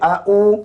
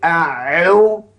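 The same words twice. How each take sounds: First: The middle consonant is a plain glottal catch. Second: The middle consonant is a deep throat sound. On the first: The speaker calls it wrong. "Kalau orang baca a'u salah" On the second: The speaker calls it right. "mesti dia a'u. So, ain tu mesti ditekankan"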